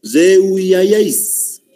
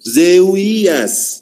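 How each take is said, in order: First: "Zeuiayáis" raised, long vowels running into -áis; corrected sounding-out. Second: "Zeuías" raised, with long drawn-out vowels; sounded-out word. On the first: Teacher asking the class to listen, "Zeuiayáis" drawn out to -áis. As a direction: stretch "Zeuiayáis" right through to the final -áis. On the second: Teacher reading out an option, "Zeuías" drawn out ending in -ías. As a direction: stretch the vowels through "Zeuías". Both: Shown as a demonstration. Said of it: "No, escuchen".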